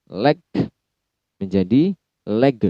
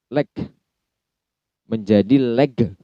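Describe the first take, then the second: The two takes are said the same way.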